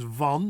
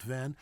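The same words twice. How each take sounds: First: Van with open ah; correct Dutch vowel. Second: Van like the vehicle; flat short a in Van; lower, softer English Van; wrong English vowel. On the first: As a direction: say Van as "vahn". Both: Shown as a demonstration. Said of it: "not Van".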